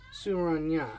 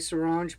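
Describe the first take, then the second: First: The name ends in a 'nya' syllable. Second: The name ends in a short 'nj' sound. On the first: This is how it is written. "but it says Surani. Or Nya" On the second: This is how the speaker usually says it. "I say Saranj"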